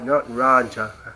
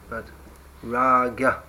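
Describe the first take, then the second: First: The middle consonant sounds like j. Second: The middle consonant sounds like g. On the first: The speaker calls it wrong. "not exactly as raj, not raja" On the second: The speaker calls it right.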